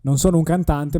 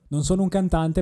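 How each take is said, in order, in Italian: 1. La voce ha una colorazione di tipo valvolare aggiunta. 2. La voce non ha una colorazione di tipo valvolare. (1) "il vintage adesso è acceso" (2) "il vintage adesso è spento"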